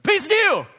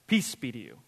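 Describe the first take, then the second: First: It is said loudly and suddenly. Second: It is said calmly and quietly.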